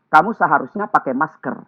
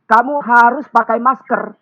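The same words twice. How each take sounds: First: Said in the usual way. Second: "harus" leaned on, a higher, slow, bossy order; harsh command. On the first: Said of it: "Kita ganti". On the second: Shown as a demonstration. Speaker showing webinar audience a too-harsh mask order, bossy. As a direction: bark the order with weight on "harus". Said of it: "Kata ini terlalu keras".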